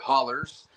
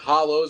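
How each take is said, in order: First: The word ends in an er sound. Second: The word ends in an oh sound.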